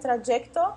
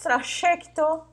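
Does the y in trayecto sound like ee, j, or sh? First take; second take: j; sh. First: The y sounds like a j consonant. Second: The y sounds like an sh consonant. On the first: "ou ela pode ter o som do J" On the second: "como dizem os argentinos"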